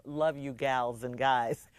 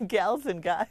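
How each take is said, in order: First: Put-on slow, drawn-out, old-fashioned greeting; quaint sign-off. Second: "Gals and guys" laughed out, amused by the words; laughing repeat. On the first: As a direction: read it like a sweet old-timer, slowly. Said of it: "Who talks like that?". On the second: Real, not acted. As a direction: chuckle through "Gals and guys".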